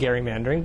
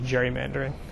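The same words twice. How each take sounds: First: It begins with a hard G sound. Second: It begins with a soft G sound. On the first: This is the older, technically proper form. "if we want to be technical about it" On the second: This is the common form used today. "the soft G"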